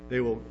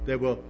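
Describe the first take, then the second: No difference in how they are said.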